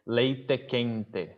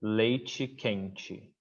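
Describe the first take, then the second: First: Leite quente with hard T's and a clear final E; Northeast leite quente. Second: Leite quente with leitchi quentchi, slow; São Paulo leite quente. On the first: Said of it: "Nicole would say". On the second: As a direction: leite quente with the T's softened to CH, slowly. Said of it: "we would say". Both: Shown as a demonstration.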